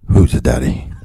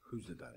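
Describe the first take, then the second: First: It is said loudly. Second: It is said fairly quietly.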